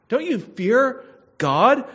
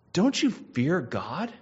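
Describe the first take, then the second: First: Much higher and louder, slow and pleading; thief's rebuke. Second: Said in the usual way. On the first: Acted. Dying thief rebukes the mocking thief, loud. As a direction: cry it out at him like a dying man.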